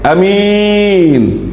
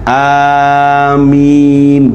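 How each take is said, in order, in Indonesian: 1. Vokal pertama pendek. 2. Vokal pertama dipanjangkan. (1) "Jangan alifnya pendek" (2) "Alifnya panjang"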